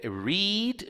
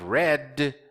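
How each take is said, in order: First: The word does not sound like red. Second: The word sounds exactly like red. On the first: The reading happens in the present. "read no presente eu leio" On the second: The reading has been done up to now. "A pronúncia do passado e do particípio do verbo ler é igualzinha à cor vermelha"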